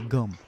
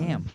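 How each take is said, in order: First: The vowel sounds like the u in cup. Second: The vowel sounds like the a in cat. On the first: This is how Filipinos say it. "We say gum" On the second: This is the way the speakers do not say it. "We don't say gam"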